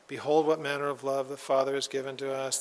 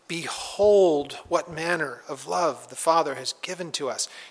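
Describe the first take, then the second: First: It is said flatly, without energy. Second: It is said excitedly, with strong energy.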